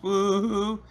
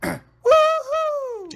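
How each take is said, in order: First: It is said weakly, with little energy. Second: It is said loudly, with more energy.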